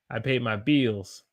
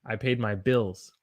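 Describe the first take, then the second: First: "bills" as Southern "beels"; Southern held vowel. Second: Said in the usual way. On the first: Shown as a demonstration. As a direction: stretch "bills" to a long ee. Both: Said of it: "Do you hear the difference?".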